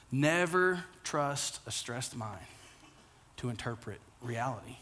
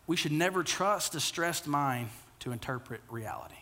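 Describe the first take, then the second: First: Slow, hushed, every word weighted; slow soft emphatic repeat. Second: Said in the usual way. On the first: Shown as a demonstration. Pastor repeating the key line to the congregation, slow and hushed. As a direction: let it sink in, softly.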